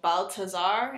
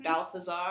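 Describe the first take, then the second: First: The middle consonant is a plain T sound. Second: The middle consonant is an English TH sound. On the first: The speaker calls it right. "there is no T H sound" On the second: The speaker calls it wrong. "instead of"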